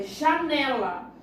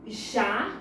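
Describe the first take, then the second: First: Said in the usual way. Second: "Janela" split into ja... ne... la; "Janela" in separate beats, ja, ne, la; syllable by syllable. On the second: Shown as a demonstration. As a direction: say "Janela" as three syllables with pauses between. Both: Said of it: "separar as palavras".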